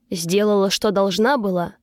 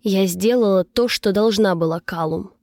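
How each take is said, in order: First: Understated sneer, repeating another's words; mocking echo. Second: Firm, understated answer dropping on the name. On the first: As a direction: echo it back with light mockery. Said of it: "повторил мои слова Калум с усмешкой". (с лёгкой усмешкой) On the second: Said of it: "твёрдо ответила я". (твёрдо, сдержанно) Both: A narrator's reading.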